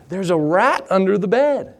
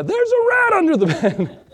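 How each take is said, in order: First: Said in the usual way. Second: Much higher, squealing alarm with a laugh breaking in; panicked yelp. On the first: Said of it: "she said". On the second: Retold or imitated. Pastor retelling spotting the desert rat, high panicked squeal. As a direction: shriek the news in mock panic.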